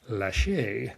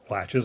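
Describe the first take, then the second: First: It is said as lache with a French accent. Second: It is said like English door latches. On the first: "it is pronounced lache with a French accent" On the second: "Latches rhymes with latches like a door latch"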